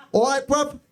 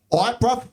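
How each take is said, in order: First: High, chirpy "All right, bruv." with bruv clipped; young lad slang voice. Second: Mock young lad greeting. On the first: Retold or imitated. Comic dad imitating the daughter's boyfriend saying "All right, bruv.". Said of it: "He did". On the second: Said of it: "He went".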